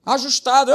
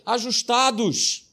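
First: Ajustados punched louder and higher; louder repeat. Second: Drawn-out slow ajustados; slow emphasis. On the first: Pastor repeating the key word, louder. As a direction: hit Ajustados hard. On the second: Pastor teaching a key word, slow. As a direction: stretch Ajustados out slowly. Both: Acted.

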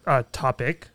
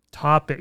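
First: Said in the usual way. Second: "Topic" said again clearly, crisp T; sounding out words. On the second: Shown as a demonstration. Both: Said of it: "sounding out words today".

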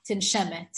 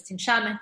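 First: "tinshemet" with an eh in the middle syllable; usual form tinshemet. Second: "tinshamet" with an ah in the middle syllable; Chumash form tinshamet. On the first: Teacher giving class an example word, eh in "tinshemet". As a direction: say "tinshemet", middle vowel as in shed. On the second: Teacher citing the Chumash form, ah in "tinshamet". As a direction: say "tinshamet", middle vowel opened to ah. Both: Shown as a demonstration. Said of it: "appears in the Chumash as tinshamet".

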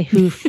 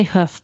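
First: "hoof" with the long oo of "food"; long-vowel hoof. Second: "hoof" with the short vowel of "foot". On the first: Guest showing how the host says it, long-vowel "hoof". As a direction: say "hoof" to rhyme with "roof". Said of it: "I know you say hoof". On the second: Guest giving her own pronunciation, short-vowel "hoof". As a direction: say "hoof" to rhyme with "woof". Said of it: "I say hoof". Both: Shown as a demonstration.

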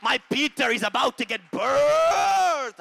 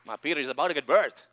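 First: High, loud shout drawing out "birthed"; climactic preaching shout. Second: Said in the usual way. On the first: Real, not acted. Preacher proclaims Peter's birth to congregation, climactic shout. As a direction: belt it out, stretching the last word.

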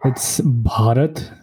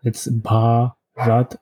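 First: "Bharat" said slowly and carefully as one word; slow, careful "Bharat" in one piece; pronunciation demo. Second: "Bharat" split slowly into a long "Bhaa" and "rat"; drawn-out, broken-up "Bharat"; syllable-by-syllable pronunciation. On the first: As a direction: show how to say "Bharat", slowly, with a breathy Bh. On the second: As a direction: teach "Bharat" very slowly, pausing between its two syllables. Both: Shown as a demonstration. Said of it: "how would you pronounce it".

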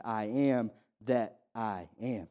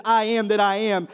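First: Much softer, lower and slow; hushed reverent repeat. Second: Said in the usual way. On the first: Acted. Preacher repeating Jesus' words to the congregation, hushed and slow. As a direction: let it sink in, barely above a hush.

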